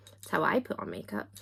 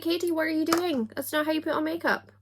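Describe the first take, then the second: First: Said in the usual way. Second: High-pitched mock-aghast scolding, quick at the end. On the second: Aghast viewer scolding Katie over her makeup, mock horror. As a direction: play an appalled makeup expert. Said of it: "are probably sitting aghast".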